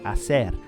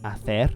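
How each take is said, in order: First: The c is said as an s sound. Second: The c is said as a th sound. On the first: This is how it is said in South America. "they use the S" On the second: This is how it is said in Spain. "more like a th in Castilian Spanish from Spain"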